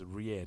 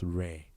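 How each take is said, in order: First: The vowel sounds like the vowel in 'ear'. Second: The vowel sounds like the vowel in 'air'. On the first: The speaker calls it right. "It's rear" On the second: The speaker calls it wrong. "not rare"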